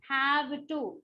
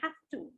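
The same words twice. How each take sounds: First: The end of have is a voiced v. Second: The end of have sounds like f. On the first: The speaker calls it wrong. "I would not say have to" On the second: The speaker calls it right. "V E becomes fur"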